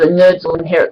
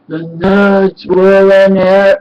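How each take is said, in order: First: It is said at normal speed and pitch. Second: It is said slowly in a deep voice. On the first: "instead of" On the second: "really deep monster voice and slows down"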